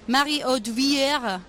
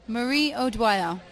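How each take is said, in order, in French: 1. Le nom est prononcé avec un accent français. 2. Le nom est prononcé avec un accent australien. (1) "Mais peut-être en français, tu vas dire" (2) "Ça, c'est avec un accent australien"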